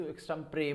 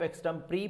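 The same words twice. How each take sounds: First: एक्सटेम्परे ending in "pray"; accepted variant. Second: एक्सटेम्परी ending in "pree"; accepted variant. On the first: Teacher offering second option, एक्सटेम्परे as "eks-tem-pray". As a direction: say एक्सटेम्परे with final "ay". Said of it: "या इसको एक्सटेम्परे बोल देंगे". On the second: Teacher offering first option, एक्सटेम्परी as "eks-tem-pree". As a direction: say एक्सटेम्परी with a long final "ee". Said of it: "या इसको आप". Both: Shown as a demonstration.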